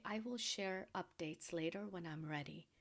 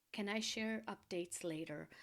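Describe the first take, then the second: First: "I will share updates later" stated, not asked; said as a statement. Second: "Can I share updates later?" put as a polite request; said as a question. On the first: Woman telling a friend "I will share updates later", as a statement. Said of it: "don't even have to say it as a question". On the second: Woman asking a friend "Can I share updates later?", as a question. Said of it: "have to say it as a question". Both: Shown as a demonstration.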